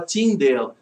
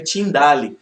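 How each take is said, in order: First: "Tyndale" said the English way, ending like "del"; English pronunciation. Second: "Tyndale" read as written, ending like "dali"; spelling pronunciation. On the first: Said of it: "em inglês fala Tyndale". ("Tyndale" com pronúncia inglesa, "Tíndel") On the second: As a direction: say "Tyndale" slowly as tin-DA-li. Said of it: "mas se escreve Tyndale". ("Tyndale" lido como se escreve, "Tindáli") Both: Shown as a demonstration.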